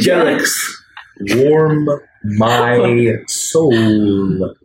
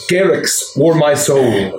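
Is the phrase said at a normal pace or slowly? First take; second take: slowly; normal. First: The phrase is said slowly and deliberately. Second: The phrase is said at a normal pace.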